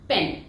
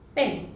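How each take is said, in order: First: The p sound is strong and heavy. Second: The p sound is light and soft. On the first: "Hindi में पेन" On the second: "British pronunciation"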